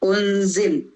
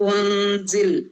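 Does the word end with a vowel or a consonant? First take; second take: consonant; consonant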